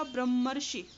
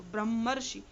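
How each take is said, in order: First: ब्रह्मर्षि said as brahm-marshi, doubled m, falling end; careful pronunciation. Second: ब्रह्मर्षि repeated as brahm-marshi, held m, firm fall; model pronunciation. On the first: Teacher shows students how to say ब्रह्मर्षि, carefully. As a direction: spell out ब्रह्मर्षि clearly, m held, r-shi joined. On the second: Teacher repeats ब्रह्मर्षि for students to copy, clearly. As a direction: say ब्रह्मर्षि once more as the model, doubled m. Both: Shown as a demonstration. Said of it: "ब्रह्मर्षि ऐसे पढ़ेंगे इसको".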